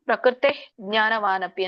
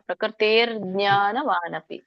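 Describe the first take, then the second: First: The words are separate with no r sound. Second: An r sound links the two words. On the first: The words are split apart without sandhi. "ಬಿಡಿಸಿನೇ ಹೇಳ್ಬೋದು" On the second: The words are joined by sandhi. "ರ first ಹೇಳಿ ಆಮೇಲೆ ಜ್ಞಾ ಹೇಳ್ಬೇಕು"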